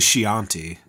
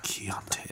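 First: The word is said in a plain way. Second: The word is said in a menacing way. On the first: This is the usual pronunciation. The speaker calls it right. "I think it's actually Chianti, but you can't say that menacingly" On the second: This is how it was said in the film. The speaker calls it wrong. "he made it Chianti for the take"

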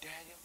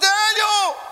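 First: It is a calm, casual call. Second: It is an anguished, heartfelt cry.

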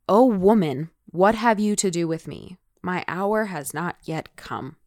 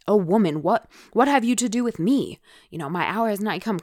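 First: It is read in a plain, neutral tone. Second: It is said in a scolding, rebuking tone.

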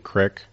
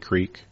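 First: The word is said with a short vowel. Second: The word is said with a long vowel. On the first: This is how people around here say it. "around here, people say crick" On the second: This is how the speaker personally says it. "I say creek"

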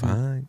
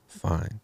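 First: It is said in a higher register. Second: It is said in a lower register.

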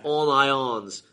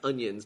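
First: The name is said as 'on ions'. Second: The name is said like the vegetable 'onions'. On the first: This is how the bearer himself said it. The speaker calls it right. "He said on ions" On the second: This is how the spelling suggests it. The speaker calls it wrong. "not onions"

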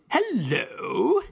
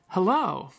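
First: It is said in an English accent. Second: It is said in a plain American accent. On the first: "or if you were in England" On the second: "it used to be that people would say often"

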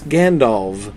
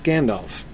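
First: The name ends with a V sound. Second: The name ends with an F sound. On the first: The speaker calls it right. "F represents F, except at the end of words, where it is used to represent the sound of V" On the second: The speaker calls it wrong. "not Gandalf"

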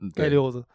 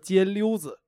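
First: It is said with an r-colored erhua ending. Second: It is said without an r-colored ending.

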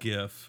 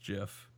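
First: It begins with a hard g sound. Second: It begins with a soft j sound. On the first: "people say it's a" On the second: "I say it's GIF, like the peanut butter"

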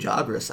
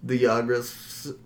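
First: The name starts with a J sound. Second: The name starts with a Y sound. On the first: The speaker calls it right. "No, they say Jagras" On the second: The speaker calls it wrong. "I always want to say it with a Y"

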